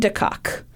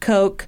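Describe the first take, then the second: First: The last syllable has a short 'o' vowel. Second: The last syllable has a long 'o' vowel. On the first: The speaker calls it wrong. "I am sure that it is not pronounced this way" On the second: The speaker calls it right. "I imagine the last name is probably pronounced Coke"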